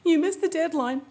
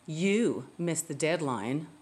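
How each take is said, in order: First: The voice sounds upset and emotional. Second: The voice sounds sarcastic and mocking. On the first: The speaker cannot control their emotions. "Wow, she's so emotional" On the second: The speaker is trying to make the listener feel guilty. "What a manipulative, sarcastic way to try to make me feel guilty"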